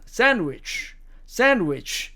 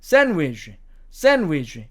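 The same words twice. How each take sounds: First: Sandwich said SAN-wich, ending in ch; American SAN-wich, clearly demonstrated; American pronunciation. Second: Sandwich said SAN-widge, ending in a j sound; British SAN-widge, clearly demonstrated; British pronunciation. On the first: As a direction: say sandwich with a final ch, American style. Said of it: "미국식 발음으로 하면". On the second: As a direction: say sandwich with a final dge, British style. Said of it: "영국식 발음으로 가면". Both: Shown as a demonstration.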